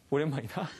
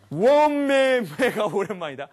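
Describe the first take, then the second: First: Said in the usual way. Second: Slow, higher and louder, bursting with feeling; a reunion cry said slowly and loudly, voice lifted high; overwhelmed exclamation. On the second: Shown as a demonstration. Lecturer acting out a moved reunion cry. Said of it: "원맨매는 무슨 뜻일까요?".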